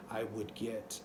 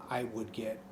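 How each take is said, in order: Both takes have the same delivery.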